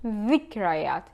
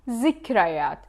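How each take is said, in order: First: It starts with a soft 'th' as in 'this'. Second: It starts with a buzzing 'z' sound. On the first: "In the modern standard Arabic, dhikrayat" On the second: "In the Levantine dialect, zikrayat"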